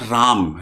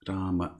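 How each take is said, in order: First: The word ends on m with no vowel. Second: The final a vowel is pronounced after m. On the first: This is the Hindi form of the name. The speaker calls it wrong. "Ram is the Hindi pronunciation" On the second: This is the Sanskrit form of the name. The speaker calls it right. "In Sanskrit, there is always the ma"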